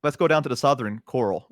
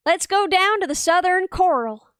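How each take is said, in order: First: Easy, quicker Southern delivery; native Southern accent. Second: Slow, careful try at Southern; attempted Southern accent. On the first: Showing the friend how, natural Southern accent. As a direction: say it like a local Southerner. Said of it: "Okay, you say it". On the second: Taking the friend's test, slow attempted Southern accent. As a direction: stretch it out in an imitation Southern drawl. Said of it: "say this in the Southern accent". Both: Shown as a demonstration.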